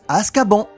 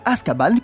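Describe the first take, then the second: First: Azkaban is said with a French pronunciation. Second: Azkaban is said with an English pronunciation. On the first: This is how it is said in France. The speaker calls it wrong. "en France on prononce Azkaban" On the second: This is how it is said in Quebec and the original. The speaker calls it right. "les Québécois prononcent Azkaban comme dans la version originale"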